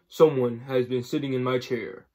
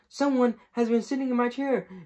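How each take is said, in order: First: The voice is big and deep. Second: The voice is small and high. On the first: "said in his great big voice" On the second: "cried in all his wee little voice"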